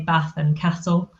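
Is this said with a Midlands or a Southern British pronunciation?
Midlands. It is said with a Midlands-style pronunciation. This is how the speaker's family and peers said it. "I say Bath and Castle"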